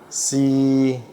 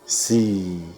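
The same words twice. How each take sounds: First: It is said in the third of six tones. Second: It is said in the fourth of six tones. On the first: "Yang ketiga" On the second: "terus yang grup kedua"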